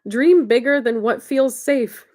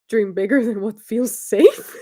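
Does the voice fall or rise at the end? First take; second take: fall; rise. First: It ends with a falling, statement tune. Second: It ends with a rising, questioning tune.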